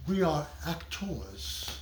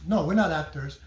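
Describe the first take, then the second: First: "actors" drawn out slowly and softer, with reverence; slow, weighty "we are actors". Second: Said in the usual way. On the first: Shown as a demonstration. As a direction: say "we are actors" slowly, savouring "actors" like a true thespian. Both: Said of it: "I like to say it like that".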